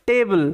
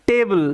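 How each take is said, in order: No difference in how they are said.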